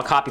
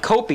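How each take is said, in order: First: Said in the usual way. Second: "copy" said higher, as COPE-ee; long O in "copy", like "cope-ee"; mispronounced copy. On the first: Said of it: "That's not how you say it". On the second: Retold or imitated. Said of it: "I'm inside my head".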